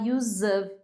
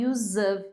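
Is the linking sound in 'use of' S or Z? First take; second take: Z; Z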